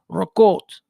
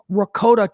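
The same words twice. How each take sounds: First: The word is clipped in an Italian-American dialect way. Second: The word is said in a standard Italian way.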